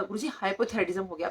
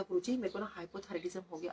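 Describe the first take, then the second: First: Mild re-enactment of speaking up; retold loud reply. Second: Soft, subdued retelling of a weak voice; voice barely there. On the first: Patient repeating her diagnosis to Guruji, mildly raised voice. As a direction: say it up, but stop short of shouting. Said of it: "उतनी जोर से मैंने कहा". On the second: Retold or imitated. Patient telling Guruji her diagnosis, weak-voiced. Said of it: "आवाज़ तो निकल नहीं रही थी".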